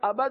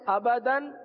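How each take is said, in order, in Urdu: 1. یہ لفظ d کی آواز پر ختم ہوتا ہے۔ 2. یہ لفظ n کی آواز پر ختم ہوتا ہے۔ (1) "آباد نہیں پڑھتے" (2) "کیا پڑھتے ہیں؟"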